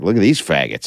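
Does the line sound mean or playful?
mean. It is said in a harsh, mean way. The insult comes across as genuinely hateful. The speaker calls it wrong. "if I'm being too mean"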